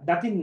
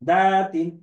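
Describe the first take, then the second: First: The vowel in 'da' is short. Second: The vowel in 'da' is drawn out long. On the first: The speaker calls it wrong. "আরে না, দাতিন না" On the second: The speaker calls it right. "এখানে টান আছে।"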